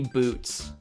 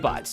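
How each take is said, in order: First: The vowel is a long 'oo' sound. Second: The vowel is a short 'uh' sound. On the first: This is a possible technical reading of the surname. "I kind of wonder if it would technically be boots" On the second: This is how the name is actually said. "but it's Larry Butts, don't get me wrong"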